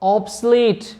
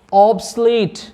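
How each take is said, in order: Both takes have the same delivery.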